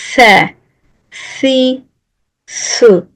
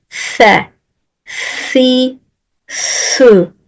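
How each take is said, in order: No difference in how they are said.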